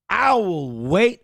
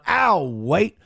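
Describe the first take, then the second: First: Each word is said fully and separately. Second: The first two words are contracted together.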